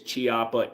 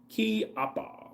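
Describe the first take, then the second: First: The name begins with a soft ch sound. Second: The name begins with a hard k sound. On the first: The speaker calls it wrong. "Some people will say it's Chiappa" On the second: The speaker calls it right. "Italians use a hard k"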